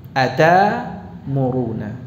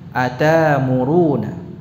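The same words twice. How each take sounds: The two takes are said the same way.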